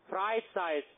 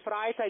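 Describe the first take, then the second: First: The word is articulated clearly and distinctly. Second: The word is mumbled and hard to make out. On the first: The speaker calls it right. "jetzt versteht man's" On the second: The speaker calls it wrong. "Da ist es bis hingenuschelt"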